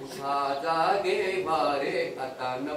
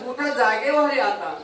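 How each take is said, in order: First: उठा, जागे व्हा रे आता drawled much lower, softer and slow; lazy mock call. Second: Calling out उठा, जागे व्हा रे आता as a firm summons; saints' wake-up call. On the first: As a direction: mumble the wake-up call half-heartedly. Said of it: "ते जागेच असणारे म्हणतात". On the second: Retold or imitated. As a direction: rouse the sleepers with a clear call. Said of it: "आमचे संत म्हणतात".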